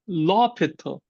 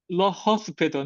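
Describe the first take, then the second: First: The name is said without S or H sounds. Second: The name is said with S and H sounds. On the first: The speaker calls it right. "in French they often silent H" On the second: The speaker calls it wrong. "not la hospital"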